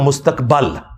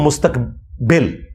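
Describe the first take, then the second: First: The vowel before the final L is 'a'. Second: The vowel before the final L is 'i'. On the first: This is the correct form of the word. The speaker calls it right. "ये लफ्ज है मुस्तकबल, जबर है" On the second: This is the common everyday pronunciation. The speaker calls it wrong. "ये हम उर्दू में जो कहते हैं ना फ्यूचर को मुस्तकबिल"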